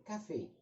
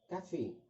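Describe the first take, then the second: First: The first syllable sounds light and thin. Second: The first syllable sounds light and thin.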